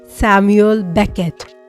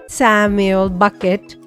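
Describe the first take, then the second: First: The surname begins with a 'beck' sound. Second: The surname begins with a 'buck' sound. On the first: The speaker calls it right. "actually, it's Samuel Beckett" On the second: The speaker calls it wrong. "whenever I say it in a flow, I'm like"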